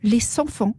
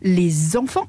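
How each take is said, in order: First: The linking sound before enfants is s. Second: The linking sound before enfants is z. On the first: The speaker calls it wrong. "et non" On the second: The speaker calls it right. "On dit"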